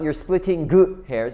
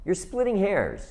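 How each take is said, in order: First: A separate hard g sound is heard before 'hairs'. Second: The ending flows smoothly into 'hairs' without a g. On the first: The speaker calls it wrong. "It's not" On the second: The speaker calls it right. "but it's"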